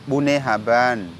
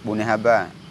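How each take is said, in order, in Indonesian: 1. Frasa itu berakhir dengan bunyi n. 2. Frasa itu berakhir dengan vokal, tanpa n. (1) "ada akhiran N" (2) "kadang-kadang nggak tak pakai akhiran N"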